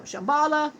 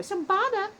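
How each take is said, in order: First: Said in the usual way. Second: Put-on "Shambhala" shouted higher like a [name] hook; [name] style. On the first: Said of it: "Yes, folks". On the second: Shown as a demonstration. Joking how [name] would yell "Shambhala". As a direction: bark "Shambhala" like a rap hook. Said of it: "would have been a great Beastie Boy".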